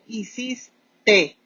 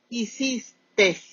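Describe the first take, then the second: First: The word ends without an added s sound. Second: The word ends with an added s sound. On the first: The speaker calls it right. "Se dice hiciste" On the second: The speaker calls it wrong. "esa S que ponen muchas personas allí está absolutamente de más"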